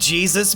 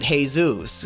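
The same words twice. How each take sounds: First: The name is said with an English pronunciation. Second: The name is said with a Spanish pronunciation. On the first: "No, they just call him Jesus Burgess" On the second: "They would pronounce it Jesus because that's like a Spanish Mexican name"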